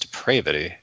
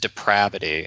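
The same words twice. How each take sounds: First: The stressed A is a long vowel. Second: The stressed A is a short vowel. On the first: The speaker thought it was said this way. "if you're depraved, you wouldn't shorten the A" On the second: Someone else said it. "One time Geraldo Rivera said depravity"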